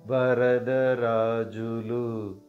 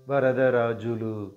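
First: It is said slowly. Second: It is said at normal speed.

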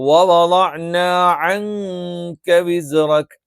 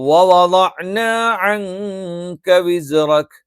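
Both takes have the same delivery.

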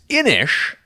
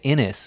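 First: The word ends with an 'sh' sound. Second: The word ends with an 's' sound. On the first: The speaker calls it right. "which that is the correct pronunciation" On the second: The speaker calls it wrong. "I was calling it Innis, and that's wrong"

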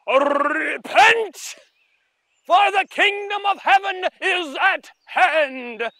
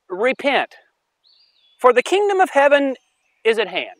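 First: It is said forcefully, with strong energy. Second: It is said flatly, without much force.

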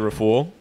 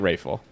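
First: The name is pronounced carefully, sound by sound. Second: The name is pronounced loosely, as in conversation. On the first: It is for a reservation. "if it's for a reservation, I'll say Raful because it's spelled like that" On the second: It is in everyday conversation. "But if it's like in a conversation, like Raful"

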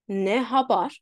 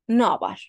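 First: The words are said fully with the h. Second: The words run together and the h is dropped.

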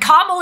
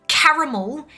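First: The second A is dropped, giving two syllables. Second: The second A is pronounced, giving three syllables. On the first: This is a woman's name. "is a woman's name" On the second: This is a sweet treat. "is a sweet treat"

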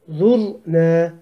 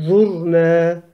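No difference in how they are said.

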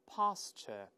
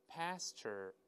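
First: British pronunciation, with no r-colouring. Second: American pronunciation, with a rhotic r-coloured ending. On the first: "在英联邦国家呢，前面发r，所以读成pasture" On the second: "在美式发音中，前面r 变成i，后面加一个卷舌"

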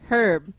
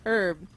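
First: The word is said in a non-French way. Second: The word is said in a French-like way. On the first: The speaker calls it right. "it's herb" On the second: The speaker calls it wrong. "why do Americans say everything like they're French"

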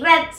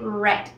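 First: The word is said with a Spanish-style pronunciation. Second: The word is said with an English pronunciation. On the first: The speaker calls it wrong. "no vamos a decir red" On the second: The speaker calls it right. "sino vamos a decir red"

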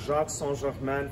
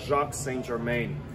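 First: The name is pronounced the French way. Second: The name is pronounced the American way.

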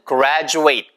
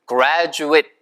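First: The last syllable rhymes with eight. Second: The last syllable is a short 'it' sound. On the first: It is the verb meaning to finish school. "ate로 끝나는데 eight 이렇게 읽으면은" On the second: It is the noun for a person who finished school. "graduate 이렇게 it로 읽으면은 졸업생을 이야기하잖아요"

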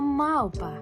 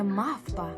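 First: The consonant before p is a short u-glide. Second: The consonant before p is a voiceless f sound. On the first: The speaker calls it right. "переходить у нескладотворче У" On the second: The speaker calls it wrong. "не мавпа"

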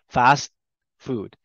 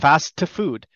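First: The T is held silent before the next word. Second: The T is released with a small vowel after it. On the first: The speaker calls it right. "it's a pause" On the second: The speaker calls it wrong. "No, I don't say that"

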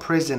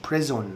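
First: The second syllable has a reduced, nearly silent vowel. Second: The second syllable has a full 'o' vowel. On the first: The speaker calls it right. "انت بتنطقها بريزن" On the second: The speaker calls it wrong. "مش بريزون"

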